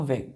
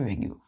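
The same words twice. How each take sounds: First: वेग said as one short syllable, "vayg"; वेग pronounced "vayg" with a silent ending; correct pronunciation. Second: वेग्यू read as spelled, ending in a "yoo" sound; वेग्यू said letter by letter as "veg-yoo"; spelling pronunciation. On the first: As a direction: drop the ending and say just वेग. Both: Shown as a demonstration. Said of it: "pronounce में हम वेग बोलते हैं इसको".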